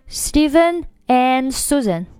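'And' is as strong as the two names. The speaker calls it wrong. "你不要读成Stephen and Susan"

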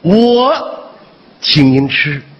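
The stress is on 我.

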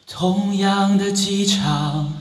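The voice is airy, with audible breath mixed in. "那么如果加上气声的话，大家听一下啊"

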